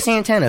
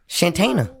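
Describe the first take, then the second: First: The name starts with an s sound. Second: The name starts with a sh sound. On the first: The speaker calls it wrong. "It ain't Santana" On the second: The speaker calls it right. "has to be Shantana"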